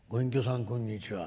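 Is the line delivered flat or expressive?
flat. The line is said flatly, without dramatic expression. The speaker calls it right. "誰かと思ったら初参会っつって。"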